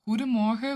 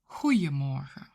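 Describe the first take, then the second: First: The middle consonant is a D sound. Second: The middle consonant is a J sound. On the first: It is the more formal greeting. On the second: It is the less formal greeting.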